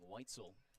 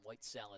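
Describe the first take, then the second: First: The second syllable sounds like soul. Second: The second syllable sounds like cell. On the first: The speaker calls it right. "the actual pronunciation" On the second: The speaker calls it wrong.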